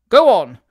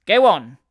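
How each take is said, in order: First: Loud, forceful shipboard order; master's cry. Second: Loud lad relaying an order; a boy calling it onward; boy's echoing call. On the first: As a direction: call it out hard from up on deck. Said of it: "cried the master of the boat". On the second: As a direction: echo the order like a ship's boy. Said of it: "echoed the boy". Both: A narrator's reading.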